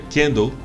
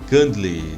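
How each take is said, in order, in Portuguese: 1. A palavra tem pronúncia em estilo inglês. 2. A palavra tem pronúncia em estilo português. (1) "se pronuncia candle" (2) "Não se fala candle"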